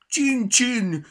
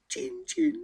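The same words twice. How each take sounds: First: Much higher, much louder blaring "Csin, csin"; boomed mockery. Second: Very high squeaky "Csin, csin"; mouse squeak mimic. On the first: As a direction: blare "Csin, csin" at the mouse. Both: A narrator's reading. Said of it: "harsogta Petya".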